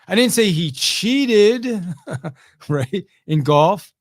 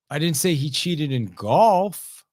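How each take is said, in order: First: The word cheated carries the main stress. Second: The word golf carries the main stress. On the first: He did something less than real cheating. "he just wasn't technically cheating" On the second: He cheated at something else. "No, he cheated on his taxes"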